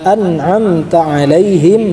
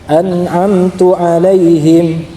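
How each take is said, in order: First: The vowel after an'amt is an a sound. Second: The vowel after an'amt is a u sound. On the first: It refers to the person addressed. The speaker calls it right. "An'amta itu kan e, menunjukkan kamu" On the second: It refers to the speaker himself. The speaker calls it wrong. "ketika dibaca an'amtu itu dibaca jadi jauh ke saya"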